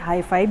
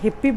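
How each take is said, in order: First: The name starts with a long 'high' sound. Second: The name starts with a short 'hip' sound. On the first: This is how others also say it. "लेकिन इसे हाई-फाई भी बोला जाता है" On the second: This is how the speaker herself says it. "जैसे मैं हूँ इसे हिप्पी बोल रही हूँ"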